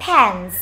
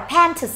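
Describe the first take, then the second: First: "pants" said as "pans", with no T; middle sound dropped. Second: "pants" with the T sounded before S; full consonant cluster. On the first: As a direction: skip the T inside "pants". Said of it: "bỏ đi cái âm đứng ở giữa". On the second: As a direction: pronounce every consonant at the end of "pants". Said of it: "Nếu các bạn đọc là pants". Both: Shown as a demonstration.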